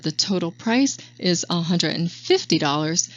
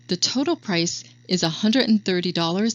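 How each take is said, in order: First: "dollars" trails up like a question; upward inflection. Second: "thirty dollars" said level and falling; even tone. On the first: Trainer showing agents the wrong rising price delivery, questioning tune. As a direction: let "a hundred and fifty dollars" rise at the end, unsure. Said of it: "say the price on an upward inflection". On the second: Trainer showing agents the right even price delivery, matter-of-fact. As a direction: state "a hundred and thirty dollars" firmly, no rise. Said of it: "stating that the price in an even tone". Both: Shown as a demonstration.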